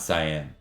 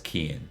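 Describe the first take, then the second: First: The first syllable does not sound like 'key'. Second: The first syllable sounds like 'key'. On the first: The speaker calls it wrong. "which we'll probably say wrong" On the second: The speaker calls it right. "Think like Keegan without the G"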